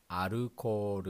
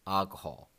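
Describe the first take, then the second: First: Alcohol as "arukoru", flat Japanese syllables; katakana pronunciation. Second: Alcohol as English "AL-kuh-hol"; plain English alcohol; English pronunciation. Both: Shown as a demonstration. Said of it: "In English".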